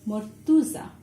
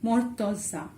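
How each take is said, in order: First: The second vowel sounds like 'u'. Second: The second vowel sounds like 'o'. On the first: "in Bangla we pronounce it as mortuza. Like this" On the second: "Now we'll have to make it mortoza"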